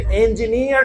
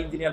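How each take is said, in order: First: ইঞ্জিনিয়ার with a careful opening "en" sound; standard pronunciation. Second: ইঞ্জিনিয়ার with a local opening "in" sound; local pronunciation. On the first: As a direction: say ইঞ্জিনিয়ার as standard English "en-ji-neer". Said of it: "কেন বলা দরকার". (ইঞ্জিনিয়ার শুদ্ধ ইংরেজি উচ্চারণে, "এন" দিয়ে শুরু) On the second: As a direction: say ইঞ্জিনিয়ার casually, the everyday Bangla way. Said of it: "ইঞ্জিনিয়ার কেন বলা দরকার". (ইঞ্জিনিয়ার চলতি বাংলা উচ্চারণে, "ইন" দিয়ে শুরু) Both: Shown as a demonstration.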